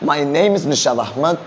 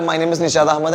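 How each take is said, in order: First: It is said slowly with a lively, melodic tune. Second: It is said quickly on one flat, even pitch. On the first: The speaker calls it right. "ഒരു music ഇതിനകത്തുണ്ടോ?" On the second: The speaker calls it wrong. "എല്ലാം ഒരേപോലെ"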